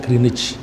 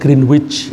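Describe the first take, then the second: First: The middle 'w' sound is silent. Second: The middle 'w' sound is pronounced. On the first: This is how people actually say the name. "Tapi orang bilangnya Greenwich" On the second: This is how the name is written. "tulisannya Greenwich ya"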